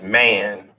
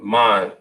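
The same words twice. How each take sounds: First: It sounds like the English word man. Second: It is said with a non-English vowel. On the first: The speaker calls it wrong. "Not to be pronounced as man" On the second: The speaker calls it right. "but man"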